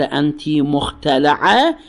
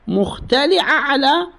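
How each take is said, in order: First: مختلعة with the L sounded a, muxtelaʕa, slow; with fatha. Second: مختلعة with the L sounded i, muxteliʕa, slow and high; with kasra. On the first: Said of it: "أما بالفتح إذا قالها مختلعة". (مختلعة بفتح اللام، ببطء) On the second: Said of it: "مختلعة بالكسر". (مختلعة بكسر اللام، ببطء) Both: Shown as a demonstration.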